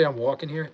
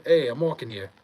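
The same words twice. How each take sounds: First: Said in the usual way. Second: Mock New York accent, punchy "hey"; New York catchphrase. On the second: Answering chat's catchphrase request, lightly hammed New York accent. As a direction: play the indignant New Yorker, accent lightly on. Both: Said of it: "Do you say, "I'm walking here"?".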